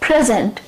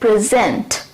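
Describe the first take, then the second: First: The stress is on the first syllable. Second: The stress is on the second syllable. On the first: It is a noun meaning a gift. "जब ये noun के तौर पे use होता है तब हम यहां पे स्ट्रेस देते हैं" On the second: It is a verb. "यहां पे जेंट पे हम स्ट्रेस देते हैं"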